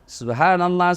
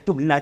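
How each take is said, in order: First: It is said slowly with every syllable clear. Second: It is said very fast and slurred. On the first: The prayer is recited properly and sincerely. The speaker calls it right. "pada cengi bacana" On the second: The prayer is gabbled without care. The speaker calls it wrong. "Jangan terlalu cepat. Tidak tahu apa dia bilang, kayak makan pisang goreng panas"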